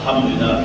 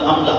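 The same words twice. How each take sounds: First: It is said slowly and carefully. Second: It is said quickly and hurriedly. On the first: The speaker calls it right. "hendaknya kita perlahan" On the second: The speaker calls it wrong. "karena saking begesaknya tuh"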